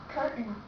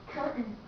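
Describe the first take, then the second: The two takes are said the same way.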